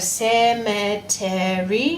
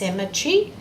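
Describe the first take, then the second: First: The word is said with four syllables. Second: The word is said with three syllables. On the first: This is a careful voice used to recall the spelling. "you're saying an extra syllable when you're using your spelling voice" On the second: This is everyday speech. "not just cemetery"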